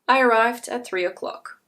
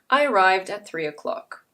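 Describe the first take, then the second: First: The ending of arrived is a t sound. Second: The ending of arrived is a d sound. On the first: The speaker calls it wrong. "If you say it incorrectly" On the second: The speaker calls it right. "If you say it correctly"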